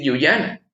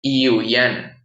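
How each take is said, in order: First: "yuyana" with a hard Spanish consonant y; "yuyana" said the Spanish way, "ʝuyana"; "yuyana" with a firm consonant y at the start; wrong Spanish y. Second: "yuyana" slowly, y like i, "iuyana"; "yuyana" with i-like y, drawn out; correct Quichua y. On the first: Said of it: "no vamos a decir yuyana". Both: Shown as a demonstration.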